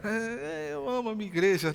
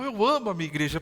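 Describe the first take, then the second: First: It is said timidly and hesitantly. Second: It is said boldly and with conviction.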